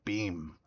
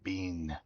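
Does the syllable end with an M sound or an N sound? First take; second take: M sound; N sound. First: The syllable ends with an M sound. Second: The syllable ends with an N sound. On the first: The speaker calls it right. "Beam with an M?" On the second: The speaker calls it wrong. "I was saying Bean. I was almost saying like B I N"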